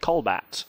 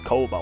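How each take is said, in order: First: The L comes in the first syllable. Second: The L comes in the second syllable. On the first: The speaker calls it wrong. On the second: The speaker calls it right.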